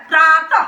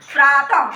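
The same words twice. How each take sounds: First: प्रातः ending in a breathy h sound, rising; प्रातः with a rising tune and final aspiration; visarga like h. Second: प्रातः with a falling tune and final aspiration; visarga like h. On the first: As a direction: say प्रातः with a clear h after the final vowel, lifting. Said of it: "तो ह जैसा उच्चारण होता है". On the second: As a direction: settle प्रातः down with an h breath at the end. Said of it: "ह जैसा उच्चारण होता है". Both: Shown as a demonstration.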